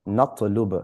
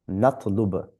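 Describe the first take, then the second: Both takes have the same delivery.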